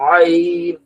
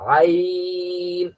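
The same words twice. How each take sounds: First: It is pushed hard from a tense throat. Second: It comes easily from a relaxed, open throat. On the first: The speaker calls it wrong. "বেশি প্রেসার দেওয়া যাবে না গলায়। আইন এভাবে বলা যাবে না" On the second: The speaker calls it right. "মুখটা হা করবেন বড় করে"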